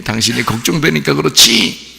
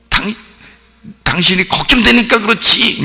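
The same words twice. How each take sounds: First: Gently chiding wife; softer worried plea. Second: High-pitched, forceful acted cry; worried outburst. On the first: Acted. Worried wife to husband, softened gentle reproach. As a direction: say it more tenderly, still a little worried. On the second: Wife to baffled husband, high worried outburst. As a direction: burst out with worry, voice pitched high. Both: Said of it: "더 부드럽게".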